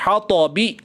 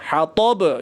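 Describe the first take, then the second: First: The word ends on a short i vowel. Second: The word ends on a bouncing b consonant. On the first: The reader continues without pausing. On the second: The reader pauses at this word.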